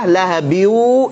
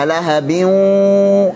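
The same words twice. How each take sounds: First: Only a plain w sound is heard, no hum. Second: A w sound is heard together with a nasal hum. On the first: The speaker calls it wrong. "seratus persen jadi wawu" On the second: The speaker calls it right.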